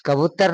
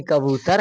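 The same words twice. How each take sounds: First: कबूतर as local "kabuttar"; regionale uitspraak. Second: कबूतर as standard "kabootar"; standard pronunciation. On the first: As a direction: say कबूतर with short u, doubled t. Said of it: "हम लोग के इधर कबूतर ही बोला जाता है". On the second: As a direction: say कबूतर with long oo, single t. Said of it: "कबूतर नहीं". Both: Shown as a demonstration.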